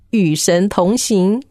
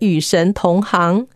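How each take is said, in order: First: The last syllable is read xing. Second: The last syllable is read hang. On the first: Walking together with God. The speaker calls it right. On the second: Being in the same profession as God. The speaker calls it wrong.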